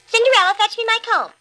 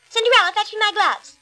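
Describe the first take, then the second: First: High, loud bossy demand; bossy stepsister. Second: High, louder bossy demand; bossy stepsister. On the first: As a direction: order her about, high and shrill. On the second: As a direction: snap the order again, high. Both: A narrator's reading. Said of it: "looking at themselves in the mirror".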